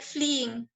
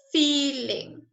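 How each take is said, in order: First: "fleeing" said again quietly with the FL clear; corrected word. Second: Says "feeling" by mistake instead of "fleeing"; misread word. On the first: Teacher corrects her own slip and softly repeats "fleeing". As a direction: correct it to "fleeing", lower and softer. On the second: Teacher quizzing the class slips and says "feeling". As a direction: read "feeling" as a slip, not "fleeing". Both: Shown as a demonstration. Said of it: "I apologize, my mistake".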